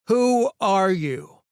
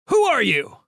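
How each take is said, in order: First: The question is said slowly and deliberately. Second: The question is said at normal speed.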